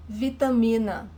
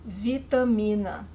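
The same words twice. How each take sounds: The two takes are said the same way.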